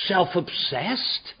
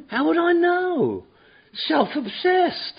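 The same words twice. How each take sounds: First: Said in the usual way. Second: High, slow, mocking disbelief; sarcastic put-on voice; mock incredulous. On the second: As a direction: scoff at the word like it's absurd. Mocking the book's word.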